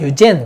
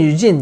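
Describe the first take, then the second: First: The last syllable ends in a short 'en' sound. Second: The last syllable ends in a long 'een' sound. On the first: "영국에서 유젠 그러더라고" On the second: "미국에서는 유진"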